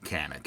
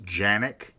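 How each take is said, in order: First: The name is said with an English pronunciation. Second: The name is said with its Turkish pronunciation. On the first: This is the locally used form of the name. "for our purposes, we'll call it Canik" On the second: This is how it is said in its home country. "actually pronounced Janik in Turkey"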